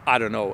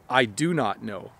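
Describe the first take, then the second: First: The words are squeezed together into 'dunno'. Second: Every word is said fully and separately. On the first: "one of the most common reductions in English" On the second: "the full and proper sentence"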